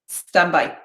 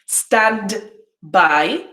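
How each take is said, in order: First: Said quickly with the d in stand dropped. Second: Said slowly with the d in stand pronounced.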